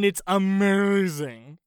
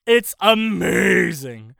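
First: "amazing" stretched slowly and loudly; drawn-out praise. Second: "amazing" very loud and long drawn out; emphatic rave. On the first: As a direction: linger on "amazing" with relish. Gushing about the soundtrack, first take. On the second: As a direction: belt out a stretched "amazing". Repeats praise with bigger emphasis. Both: Real, not acted.

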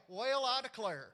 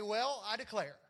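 First: Well, I declare in a mild Southern accent, Well drawn out as weyal; lightly Southern, the way folks down South say it; Southern drawl. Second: Said in the usual way. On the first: Shown as a demonstration. Pastor showing the congregation the Southern way, mild Southern accent. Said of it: "It would have been more like". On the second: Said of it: "You didn't sound too Southern".

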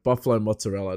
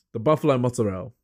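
First: Said in the usual way. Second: Mock Italian "mozzarella" with the ending cut short; Italian-style pronunciation. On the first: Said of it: "I don't say mozzarella". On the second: Shown as a demonstration. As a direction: say "mozzarella" as an Italian-American would. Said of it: "I say the, the".

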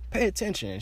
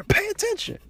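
First: Firmer scolding. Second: Very high, loud, furious Pay attention; retold angry shout. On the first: Retold or imitated. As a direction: tell her Pay attention as a final warning. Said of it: "I'm like". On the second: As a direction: bark Pay attention at her at full volume. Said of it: "I'm hot".

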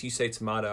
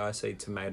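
First: "tomato" said tuh-MAH-toh; broad MAH sound in "tomato". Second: "tomato" said tuh-MAY-toh; quieter, with MAY in "tomato"; long A in tomato. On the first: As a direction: say "tomato" with AH in the middle. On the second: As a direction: say "tomato" with AY in the middle. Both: Shown as a demonstration. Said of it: "some people will say the phrase".

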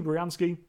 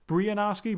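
First: Briansky with a short AN before "sky"; alternative pronunciation. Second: Brianarski with a long AR in it; alternative pronunciation. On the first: Vlogger trying both versions of the actor's surname, alternative pronunciation. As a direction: say Briansky compactly, no "ar" in the middle. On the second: Vlogger offering another way to say the actor's surname, alternative pronunciation. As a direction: say Brianarski, stretching out an "ar" before the "ski". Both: Shown as a demonstration. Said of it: "however you want to pronounce it".

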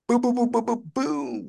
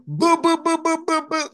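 First: High, bouncy boom ad-libs; [name] ad-lib. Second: Much higher boom ad-libs, laughing through; [name] ad-lib. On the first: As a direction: toss out the booms like a rap ad-lib. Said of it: "you sound like [name]". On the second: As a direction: redo the booms, pitched way up. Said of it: "That was a terrible boom". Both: Pretend.

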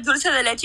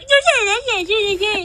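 First: Said in the usual way. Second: High-pitched teasing parrot of the friend; mocking imitation. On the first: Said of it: "if I would have said". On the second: Guest shows how the friend would tease, mocking high voice. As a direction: mimic a friend's mockery in a squeaky high voice. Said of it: "you would have been like".

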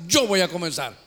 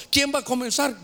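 First: Said in the usual way. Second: High rallying question. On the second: Shown as a demonstration.

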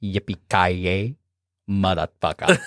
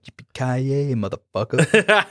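First: Deep slow catchphrase. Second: Lightly imitating the hero, stretched out slowly; slow drawn-out catchphrase. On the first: Retold or imitated. Mocking the hero's catchphrase back at him, low and slow. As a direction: lower and slow, a mock villain growl. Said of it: "What is it that you told me earlier?". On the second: Quoting the hero's line to a friend, slow and cocky. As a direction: drag out the last word like a cocky cowboy. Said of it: "And he's like".

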